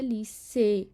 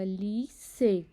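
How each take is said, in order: First: Said in the usual way. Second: ली से split slowly into two syllables. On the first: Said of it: "लीसे के आखिर में अ". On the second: Shown as a demonstration. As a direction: draw ली से apart, syllable by syllable. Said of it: "दो सिलाब हैं".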